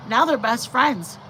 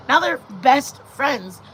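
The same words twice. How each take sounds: First: Said in the usual way. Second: "best friends" slowed right down for emphasis; slow, weighty "best friends"; emphatic slow repeat. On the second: Shown as a demonstration. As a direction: lean on each word of "best friends", slowly.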